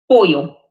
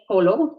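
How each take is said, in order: First: The middle sound is a y sound. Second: The middle sound is an l sound. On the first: The speaker calls it right. "double L is pronounced as y" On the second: The speaker calls it wrong. "Don't say polo"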